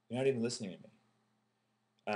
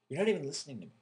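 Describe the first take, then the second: First: It is said with less intensity. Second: It is said with more intensity.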